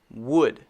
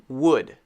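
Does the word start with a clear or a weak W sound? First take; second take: clear; clear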